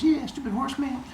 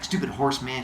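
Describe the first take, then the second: First: Higher, airy echo of her husband; echoing wife. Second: Said in the usual way. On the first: Acted. Wife echoing Heracles about the centaur, in a mock higher voice. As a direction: chime in agreeing eagerly. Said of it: "She goes". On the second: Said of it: "he's like".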